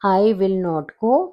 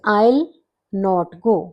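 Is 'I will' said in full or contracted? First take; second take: full; contracted. First: I will is said as two full words. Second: I will is shortened into one syllable.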